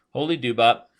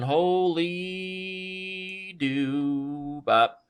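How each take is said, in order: First: Quick, punched exclamation of dismay; brisk, resigned repeat of an oath; short exclamation. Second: Long wailing exclamation at a blunder; stretched exclamation. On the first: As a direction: say it short, with HOLY hit hard. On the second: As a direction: stretch HOLY and DOO way out. Exclaims after blundering a piece. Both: Real, not acted.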